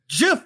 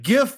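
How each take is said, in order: First: The word begins with a soft J sound. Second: The word begins with a hard G sound. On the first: The speaker calls it wrong. "He just had to go back down for the GIF" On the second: The speaker calls it right. "With the proper pronunciation the first time"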